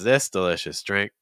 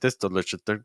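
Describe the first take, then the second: First: Long, extended vowels with softer consonants. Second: Short vowels with strong, hard consonants. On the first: The speaker calls it right. "we need to find a way to extend these vowels" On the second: The speaker calls it wrong. "your vowel sounds are so short and your consonant sounds are so strong"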